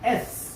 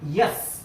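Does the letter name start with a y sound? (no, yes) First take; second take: no; yes. First: It starts with a plain e vowel. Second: It starts with a y sound before the vowel. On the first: The speaker calls it right. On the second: The speaker calls it wrong. "Not यस. Wrong"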